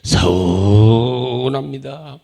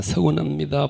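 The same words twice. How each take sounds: First: 서운합니다 stretched very slowly and loud, low and sulky; drawn-out sulk. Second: Said in the usual way. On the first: Shown as a demonstration. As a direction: drag out 서운합니다 like a hurt grumble. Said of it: "요때 들어가는 거예요". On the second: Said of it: "이렇게 마귀는 원망합니다".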